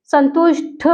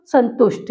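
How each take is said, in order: First: संतुष्ट ending in aspirated ठ; संतुष्ट said as santushṭh; ठ form. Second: संतुष्ट ending in plain ट, falling; no puff at the end of संतुष्ट; falling संतुष्ट said as santushṭ; ट form. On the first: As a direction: puff the last sound of संतुष्ट. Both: Shown as a demonstration. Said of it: "यहाँ टा में बदल जाएगा".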